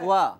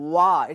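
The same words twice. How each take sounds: First: The syllable is said with a thin, light sound. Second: The syllable is said with a heavy, full sound. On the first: The speaker calls it right. "পাতলা" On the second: The speaker calls it wrong. "অনেকে বলো ওয়া, এটি ভুল হবে"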